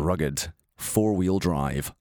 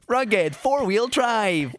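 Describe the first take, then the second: First: The voice is very low and rough. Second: The voice is higher and clear. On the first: The speaker's voice is altered by illness. "it's going to be like this" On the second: The speaker has recovered from the illness. "What happened to the other guy?"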